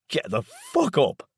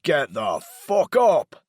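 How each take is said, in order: First: Higher, slow, cracking with rage; voice breaking with anger. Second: Louder and higher, slow furious yell. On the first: Laz wakes his stepfather, voice breaking with anger. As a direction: spit it out, voice cracking from fury. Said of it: "my voice breaking with anger". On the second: Laz yells at Daryl to get out of bed, furious yell. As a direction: bellow it down at him. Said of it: "I yell at him". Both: A narrator's reading.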